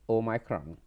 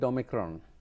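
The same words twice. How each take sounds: First: The word is said in the strict, careful way. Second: The word is said in the everyday way. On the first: It is the form given in the literature. The speaker calls it right. "But the correct one, if you look uh, at the literature, is Omicron" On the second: It is the casual, convenient form most people use. The speaker calls it wrong. "for convenience, everybody calls it Omicron"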